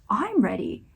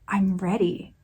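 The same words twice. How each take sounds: First: The stress is on the word I'm. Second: The stress is on the word ready.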